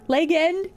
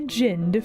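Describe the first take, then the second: First: It is split into two words, leg and end. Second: It is said as one ordinary word.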